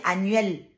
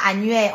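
First: "annuel" with a sounded final L; corrected pronunciation. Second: "annuel" as the form to avoid, final L dropped; wrong pronunciation. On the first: Woman correcting a commenter, "annuel" pronounced with its final L. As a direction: say "annuel" carefully, closing on a clear L. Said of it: "on dit annuel". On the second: Woman correcting a commenter, mispronounced "annuel" without its final L. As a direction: say "annuel" wrongly, ending on the vowel. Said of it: "on ne dit pas annuel". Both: Shown as a demonstration.

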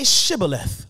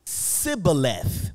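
First: Shibboleth with a clear sh at the start; correct sh sound. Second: Sibboleth with a plain s instead of sh, slowly; mispronounced s sound. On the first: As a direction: say Shibboleth with a full sh. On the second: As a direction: say Sibboleth with an s, dragging it out. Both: Retold or imitated. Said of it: "for they could not pronounce it".

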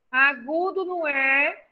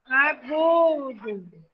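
First: Said in the usual way. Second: Agudo stretched out very slowly; slow teaching. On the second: Shown as a demonstration. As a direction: drag Agudo out for the children.

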